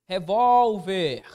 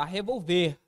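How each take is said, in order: First: "revólver" very slow and loud on vól; penultimate stress. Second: "revolver" with the stress moved to final ver; stress on last syllable. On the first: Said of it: "Onde seria a posição da sílaba tônica?". ("revólver" com tônica longa no vól) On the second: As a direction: land on the closing ver of "revolver". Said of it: "Está na última". ("revolver" com tônica no ver final) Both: Shown as a demonstration.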